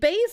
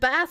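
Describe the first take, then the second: First: The word is pronounced in its musical sense. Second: The word is pronounced in its fish sense. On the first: It refers to low-pitched sound. "is the is the music thing" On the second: It refers to the fish. "is the fish"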